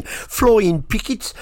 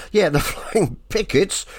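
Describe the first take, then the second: First: Birmingham accent. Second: Said in the usual way. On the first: Shown as a demonstration. Radio DJ repeating the band name in a Birmingham accent. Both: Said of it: "my Birmingham accent came out there a bit".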